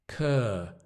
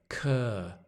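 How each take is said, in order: No difference in how they are said.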